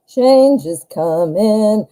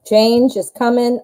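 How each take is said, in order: First: Slow, ominous and deliberate. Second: Said in the usual way. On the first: Real, not acted. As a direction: draw it out like a warning. Repeats slowly, ominous.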